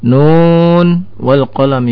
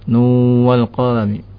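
First: The n is pronounced clearly before the w. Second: The n merges into the following w. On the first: The speaker calls it right. "tidak boleh diidghamkan" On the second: The speaker calls it wrong. "tidak boleh"

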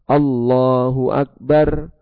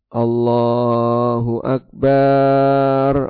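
First: The final vowel of Akbar is kept short. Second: The final vowel of Akbar is drawn out long. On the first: It states that God is the greatest. The speaker calls it right. "Barnya pendek" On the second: It questions whether God is truly great. The speaker calls it wrong. "dibaca panjang"

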